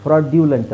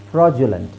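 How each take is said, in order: First: ಫ್ರಾಡ್ಯುಲೆಂಟ್ with "dyoo" in the middle; spelling mispronunciation. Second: ಫ್ರಾಡ್ಯುಲೆಂಟ್ with "joo" in the middle; J-sound pronunciation. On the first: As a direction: say ಫ್ರಾಡ್ಯುಲೆಂಟ್ as "fraw-dyoo-lent". (ಫ್ರಾಡ್ಯುಲೆಂಟ್ - ಜು ಬದಲು ಡ್ಯು) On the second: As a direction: say ಫ್ರಾಡ್ಯುಲೆಂಟ್ as "fraw-ju-lent". (ಫ್ರಾಡ್ಯುಲೆಂಟ್ - ಮಧ್ಯೆ ಜು) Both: Shown as a demonstration. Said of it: "ಫ್ರಾಡ್ಯುಲೆಂಟ್ ಅಲ್ಲ".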